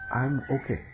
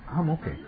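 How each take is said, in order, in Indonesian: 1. Diucapkan dengan suara tenang dan mantap. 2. Diucapkan dengan suara sambil menangis.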